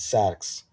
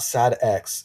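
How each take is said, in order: First: The name is said as one blended word. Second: The name is split into two separate parts. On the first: The speaker calls it right. "It's Sax" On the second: The speaker calls it wrong. "Not Sad X"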